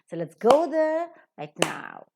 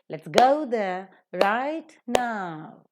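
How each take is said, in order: First: Only 'right' is stressed; 'now' is unstressed. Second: Both 'right' and 'now' are stressed. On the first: "the first adverb is accented and not the second" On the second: "where both are accented"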